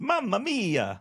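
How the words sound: It is said in a Mario impression.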